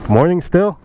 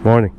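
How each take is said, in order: First: Surprised question. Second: Said in the usual way. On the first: Real, not acted. Surprised it is still morning.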